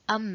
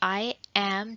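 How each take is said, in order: First: It is contracted into one short syllable. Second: It is said as two separate full words. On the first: "like am" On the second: "I am जो है वो am बन जाएगा"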